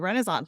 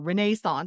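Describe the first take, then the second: First: It is said in a non-British way. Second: It is said in the British way.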